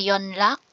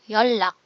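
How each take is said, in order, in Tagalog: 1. Ang gitnang katinig ay tunog N tapos L. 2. Ang gitnang katinig ay tunog mahabang L. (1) "hindi siya yonlak" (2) "yollak. Magiging L yung tunog"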